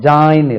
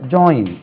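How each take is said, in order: First: The vowel is a plain long 'ah'. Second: The vowel glides like 'oy'. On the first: The speaker calls it wrong. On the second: The speaker calls it right.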